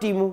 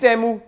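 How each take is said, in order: First: The first vowel sounds like 'tee'. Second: The first vowel sounds like 'tay'. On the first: The speaker calls it wrong. "Not टीमू" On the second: The speaker calls it right. "It's टैमू"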